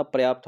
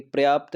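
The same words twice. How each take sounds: First: पर्याप्त said as "par-yaapt"; correct pronunciation. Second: पर्याप्त squeezed to "pryaapt", no vowel after p; wrong pronunciation. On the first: Teacher correcting students, पर्याप्त as "par-yaapt". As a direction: open with a full "par" in पर्याप्त. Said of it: "पर्याप्त होता है". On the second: Teacher showing the faulty word, पर्याप्त as "pryaapt". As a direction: run p and r together, "pryaapt", in पर्याप्त. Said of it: "पर्याप्त नहीं होता". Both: Shown as a demonstration.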